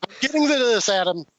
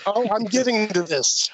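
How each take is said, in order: First: Higher, laughing as he repeats it; laughing insistence. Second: Insisting. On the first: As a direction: laugh it off while holding the floor. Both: Real, not acted. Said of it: "Calm down".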